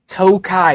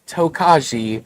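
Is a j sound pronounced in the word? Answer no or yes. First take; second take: no; yes. First: The j sound is silent in the word. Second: A j sound is pronounced in the word. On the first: The speaker calls it right. "Tokai is the proper pronunciation" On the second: The speaker calls it wrong. "It is not Tokaji or Tokajai"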